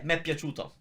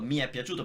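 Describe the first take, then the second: First: Mi and è merge into one syllable. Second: Mi and è are said as separate syllables. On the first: This is how people speak naturally. The speaker calls it right. "We blend the mi with the e" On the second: This is the technically correct form. The speaker calls it wrong. "you can say mi è piaciuto ... it sounds like weird"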